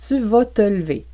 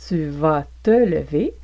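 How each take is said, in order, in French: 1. Le E de lever est muet. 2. Le E de lever est prononcé.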